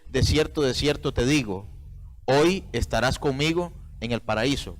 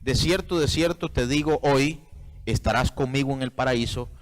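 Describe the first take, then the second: First: The pause comes right before the word hoy. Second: The pause comes right after the word hoy.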